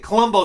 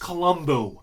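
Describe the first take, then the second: First: The name is said in an altered form. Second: The name is said in its original form. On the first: This is the familiar, nicer-sounding version. The speaker calls it wrong. "Colombo sounds better" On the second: This is the name's real pronunciation. The speaker calls it right. "I know it's Colombo, all right"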